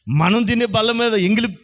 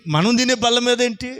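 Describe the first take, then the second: First: Said in the usual way. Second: తినే pushed higher in disbelief; mild mock indignation on తినే; indignant question. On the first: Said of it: "wife's objection voiced". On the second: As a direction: ask it as an outraged wife. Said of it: "repeated as indignant question".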